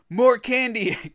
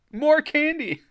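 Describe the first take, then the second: First: High, loud, drawn-out plea; choked cry. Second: Very high, loud comic squeal; exaggerated choked cry. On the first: A narrator's reading. Greg squeezed by the blob, choked cry. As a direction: cry out as if being strangled. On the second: Reader replaying strangled Greg for laughs, hammed-up squeal. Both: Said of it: "Greg choked".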